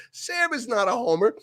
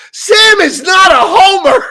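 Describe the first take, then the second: First: Higher but softer repeat of her protest; retold protest. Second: Partner's outburst, shouted high and slow; indignant retold shout. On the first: Retelling what Jen said to Chris, softer imitated protest. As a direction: quote her lightly, pitched up and held back. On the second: Jen correcting Chris in the retelling, indignant imitated shout. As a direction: belt it out slowly, imitating her protest.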